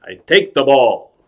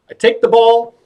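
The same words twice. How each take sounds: First: Falling, deliberate imitation; Robert De Niro. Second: High, sing-out showman line; magician's patter. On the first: Actor copies the clown's trick, falling-toned impression. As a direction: bring the patter down to a falling statement. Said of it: "So now he tries it". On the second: Acted. Clown demonstrates trick to actor, high presenting voice. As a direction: pitch it up like presenting a prop.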